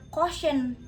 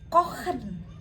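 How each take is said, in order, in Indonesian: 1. Bunyi ch adalah desis mirip sh di depan. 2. Bunyi ch adalah bunyi tenggorokan dari belakang. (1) "Jadinya bukan kochen" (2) "tapi kochen"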